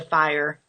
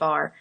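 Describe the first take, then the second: First: It is said with a full 'fire' vowel. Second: It is said like the word 'far'. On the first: "I know it's a fire" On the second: "we've always said far, like F A R instead of F I R E"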